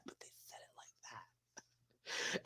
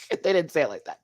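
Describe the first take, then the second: First: Breathy whispered aside. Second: Said in the usual way. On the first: Pretend. Vlogger whispers the punchline about the judges' tone. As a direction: whisper it like gossip.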